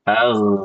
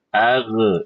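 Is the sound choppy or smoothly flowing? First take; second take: flowing; choppy. First: The sound flows smoothly without any catch. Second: The sound is broken with a catch in it. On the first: The speaker calls it right. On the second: The speaker calls it wrong. "ibu kayak gitu. Harusnya tidak"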